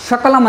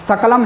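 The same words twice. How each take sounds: First: शकलम with sh at the start; mistaken sh sound. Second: सकलम with a dental s at the start; correct s sound. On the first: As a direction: say शकलम as "shakalam". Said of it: "ना बोल दें". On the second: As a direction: say सकलम as "sakalam". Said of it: "उसकी जगह आप". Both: Shown as a demonstration.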